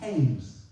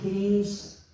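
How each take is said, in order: First: The name is said differently from its spelling. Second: The name is said the way it is spelled. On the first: This is how the villagers say it. The speaker calls it right. "here in the village, we prefer to pronounce it Keynes" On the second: This is how an outsider says it. The speaker calls it wrong. "I know it's spelled Keynes, K E Y N E S"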